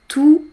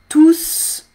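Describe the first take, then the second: First: The final S sound is silent. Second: The final S sound is pronounced. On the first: "Mais avec les, j'entends pas" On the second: "il faut prononcer le S"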